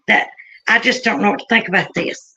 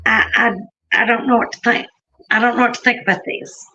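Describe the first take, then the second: First: Said in the usual way. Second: Lightly imitating her puzzled murmur; bewildered woman. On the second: The woman staring at the phone, lightly imitated bewildered. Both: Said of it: "That's how she said it".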